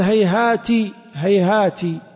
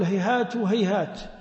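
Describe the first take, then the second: First: The word ends with an 'i' vowel. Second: The word ends with an 'a' vowel.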